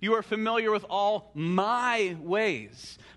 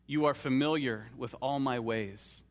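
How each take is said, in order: First: The word 'my' is given strong emphasis. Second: The word 'my' carries no special emphasis.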